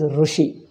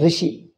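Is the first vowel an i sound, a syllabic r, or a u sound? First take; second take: u sound; i sound. First: The first syllable has a u vowel. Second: The first syllable has an i vowel. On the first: "South Indians pronounce as Rushi. Ru, they make it totally U" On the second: "North Indians make it totally E"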